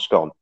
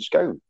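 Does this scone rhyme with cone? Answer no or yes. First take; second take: no; yes. First: The vowel does not rhyme with cone. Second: The vowel rhymes with cone. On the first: The speaker calls it wrong. "Scones, not scone" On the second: The speaker calls it right. "You call a cone a cone, stick an S on it, it's a scone"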